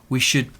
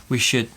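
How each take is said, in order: The two takes are said the same way.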